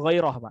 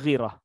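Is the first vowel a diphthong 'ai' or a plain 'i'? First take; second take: diphthong 'ai'; plain 'i'. First: The first vowel is the diphthong 'ai'. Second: The first vowel is a plain 'i'. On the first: The speaker calls it right. "yang betul ghairah" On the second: The speaker calls it wrong. "bukan ghirah"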